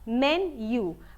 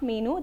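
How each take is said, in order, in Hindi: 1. यह 'men-yoo' जैसा सुनाई देता है, y ग्लाइड के साथ। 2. यह 'mee-noo' जैसा सुनाई देता है, बिना y ग्लाइड के। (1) "the correct pronunciation is मेन्यू" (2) "but it is not मीनू"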